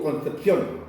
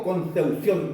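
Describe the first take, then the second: First: Said in the usual way. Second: Concepción with "eu" in the middle: "Conseución"; Concepción with the p softened to u; Mapuche-style pronunciation. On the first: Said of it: "digo Concepción". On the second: Retold or imitated. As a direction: say "Concepción" as con-seu-SIÓN. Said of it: "yo no digo Concepción".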